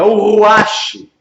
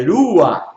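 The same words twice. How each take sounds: First: "Ruach" loud and drawn out with a final sh; mistaken reading of Ruach. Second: "Rua" with rolled r and throaty final h; correct pronunciation of Rua. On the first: Retold or imitated. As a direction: mimic the wrong "Ruach", ending in a long sh. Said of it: "vai ler o hebraico diz assim". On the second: Shown as a demonstration. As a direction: demonstrate "Rua", ending in the throat, no sh. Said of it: "não é Ruach".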